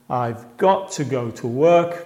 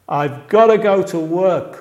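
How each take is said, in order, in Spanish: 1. Las palabras 'got to' se dicen completas. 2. Las palabras 'got to' se reducen a 'gotta'. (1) "realmente está diciendo" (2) "muchos pronuncian así"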